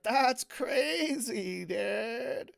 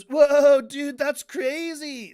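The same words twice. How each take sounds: First: Very slow, higher California stoner drawl. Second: Sudden loud, drawn-out amazement; loud surfer awe. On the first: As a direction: stretch every word like a stoner. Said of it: "do the stoner voice". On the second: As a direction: blurt it out, wowed and slow. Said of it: "he goes". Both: Retold or imitated.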